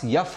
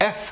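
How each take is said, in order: First: The letter name begins with a Y sound. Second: The letter name begins with a plain vowel. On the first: The speaker calls it wrong. "इस हर्फ का pronunciation इन लोगों के पास यफ होता है" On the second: The speaker calls it right. "जबकि असल में ये हर्फ एफ है"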